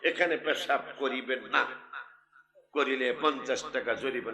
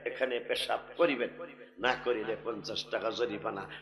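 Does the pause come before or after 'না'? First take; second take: after; before. First: The pause comes after 'না'. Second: The pause comes before 'না'.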